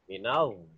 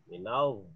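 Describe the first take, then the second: The two takes are said the same way.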